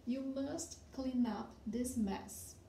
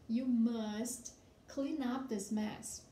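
First: Slow model sentence. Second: You must clean up this mess, each word drawn out slowly; very slow model sentence. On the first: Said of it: "for example". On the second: Teacher reading slowly to students so they can follow. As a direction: read the sentence aloud slowly for the class. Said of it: "esta bagunça". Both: Shown as a demonstration.

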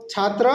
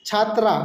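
First: "ছাত্র" ending in a short rounded vowel; short final vowel on "ছাত্র", chhaatro; masculine Nepali form. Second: "ছাত্রা" ending in open "aa"; chhaat-raa, open final vowel on "ছাত্রা"; feminine Nepali form. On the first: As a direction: keep the end of "ছাত্র" short, no "aa". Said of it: "নেপালিতে বলবো". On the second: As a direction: open up the last syllable of "ছাত্রা". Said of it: "ছাত্রী যেটা আছে ওইটা আমরা বলবো". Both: Shown as a demonstration.

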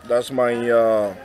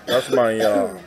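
No difference in how they are said.

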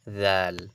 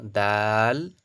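First: দাল starting with a "th" as in "this". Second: দাল with a stopped "d" and long vowel; loud held দাল, tongue stopping the d; hard "d" dal. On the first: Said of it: "দাল কিন্তু নয়". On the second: Teacher recaps the letters, দাল with hard d. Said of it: "তাহলে কি হলো?". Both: Shown as a demonstration.

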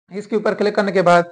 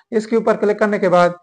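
No difference in how they are said.

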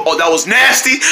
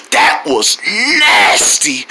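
First: Said in the usual way. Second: Low, drawn-out play disgust; mock disgust. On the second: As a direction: make a show of being grossed out. Acted disgust at shock pain.

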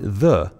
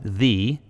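First: "the" said as "thuh" with a short uh. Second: "the" said as "thee" with a long ee. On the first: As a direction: say "the" like "thuh" before a consonant. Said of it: "Before a consonant, we pronounce it the". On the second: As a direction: say "the" like "thee" before a vowel. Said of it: "Before a vowel, we pronounce it the". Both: Shown as a demonstration.

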